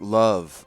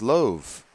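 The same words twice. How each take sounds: First: It is said with the ordinary modern vowel. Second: It is said with an older, different vowel. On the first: "Like love" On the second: "used to be pronounced love"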